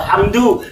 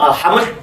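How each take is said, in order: First: The word ends with a final u vowel. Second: The word ends on d with no vowel. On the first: The speaker calls it right. "mesti dibaca alhamdu" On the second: The speaker calls it wrong. "tidak mungkin dibaca"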